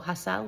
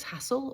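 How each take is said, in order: First: Hassel stressed on the second syllable; alternative pronunciation of Hassel. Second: Hassel stressed on the first syllable; first pronunciation of Hassel. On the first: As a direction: say Hassel as hass-ELL, with a full ending. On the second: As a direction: say Hassel as HASS-ul, with a weak ending. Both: Shown as a demonstration. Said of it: "not sure how you say it".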